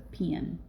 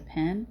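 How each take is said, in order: First: It is said in a southern US accent. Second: It is said in a northern US accent. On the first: "Here it's a pen" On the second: "They don't say your writing utensil would be a pen"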